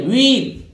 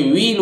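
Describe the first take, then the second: First: "व्हील" with a sounded h; the mistaken "व्हील" with h; wrong pronunciation. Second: "व्हील" with silent h, like weel; correct pronunciation. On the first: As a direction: show the wrong "व्हील", aspirated. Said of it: "ये व्हील नहीं है". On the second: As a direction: say "व्हील" right, no h. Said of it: "एच silent रहेगा". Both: Shown as a demonstration.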